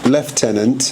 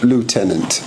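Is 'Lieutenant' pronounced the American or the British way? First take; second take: British; American. First: It is said with a British pronunciation. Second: It is said with an American pronunciation. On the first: It follows the protocol of the Crown. The speaker calls it right. "the English, British way of saying it, which is Lord Lieutenant" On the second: It is a common mistaken form of the title. The speaker calls it wrong. "the Lieutenant bit's a bit American"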